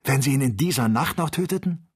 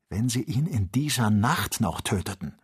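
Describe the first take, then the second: First: Excited. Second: Said in the usual way. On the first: Acted. Joe in Aufregung.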